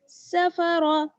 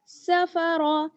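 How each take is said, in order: No difference in how they are said.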